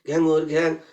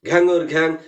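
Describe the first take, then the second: First: The call is said softly. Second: The call is said moderately loud. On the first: "প্রথমে বলুন আস্তে বলতে" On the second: "বলুন একটু মধ্যম জোরে"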